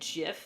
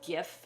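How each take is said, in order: First: The word begins with a soft j sound. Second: The word begins with a hard g sound. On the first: The speaker calls it wrong. "GIF is the peanut butter" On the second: The speaker calls it right. "I transfer the g sound from the graphic"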